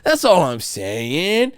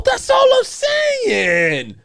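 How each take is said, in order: First: Said in the usual way. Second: Very high, slow, shouted "That's all I'm saying"; angry shout. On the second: Real, not acted. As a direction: yell it out, stretched and furious. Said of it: "we're getting a little angry".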